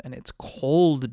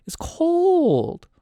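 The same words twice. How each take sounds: First: "cold" drawn out slowly; stress on cold. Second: "cold" held very high and loud; high-pitched cry. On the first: Game master telling players about the north, "cold" stretched out. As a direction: stretch the word "cold" for emphasis. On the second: Game master stressing the northern chill, hammed-up high wail. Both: Real, not acted.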